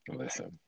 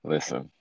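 First: Whispered. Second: Said in the usual way. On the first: Real, not acted. Repeats listen softly.

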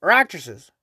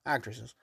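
First: Said in the usual way. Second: "Actresses" muttered low and much softer, almost to himself; muttered self-correction. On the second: Real, not acted. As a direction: drop to a quiet aside to fix the word "Actresses".

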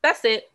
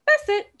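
First: Said in the usual way. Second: "That's it" jumps way up high in mock shock; high, sarcastic "That's it"; mock shriek. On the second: Shown as a demonstration. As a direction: squeal "That's it" high and incredulous.

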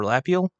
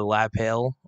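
First: "Lapiel" as LAP-yul, ending on a questioning rise; "Lapiel" pronounced LAP-ee-ul; alternative pronunciation. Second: "Lapel" with a long AY in the second syllable; "Lapel" pronounced lah-PAYL; alternative pronunciation. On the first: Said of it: "It's either Lapel or Lapiel". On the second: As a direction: say "Lapel" as la-PAIL. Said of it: "I think I'm saying it wrong". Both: Shown as a demonstration.

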